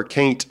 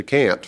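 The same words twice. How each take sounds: First: "can't" rhyming with "paint"; Southern pronunciation. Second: Said in the usual way. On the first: Shown as a demonstration. Author showing the form he prefers, Southern pronunciation. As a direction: say "can't" as Southern "cain't", long A. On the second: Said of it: "prefer "can't" to "can't".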